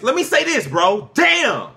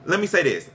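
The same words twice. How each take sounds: First: Real shout, pitched way up; angry outburst. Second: Said in the usual way. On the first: Real, not acted. Co-host fed up with being cut off, angry shout. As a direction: yell to get the floor, exasperated. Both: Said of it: "You're angry".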